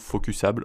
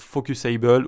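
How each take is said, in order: First: The word is pronounced with French sounds. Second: The word is pronounced with English sounds.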